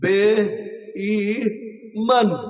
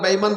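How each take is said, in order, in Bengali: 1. শব্দটি প্রতিটি অক্ষর ধরে ধরে টেনে বলা হয়েছে। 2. শব্দটি স্বাভাবিক গতিতে দ্রুত বলা হয়েছে।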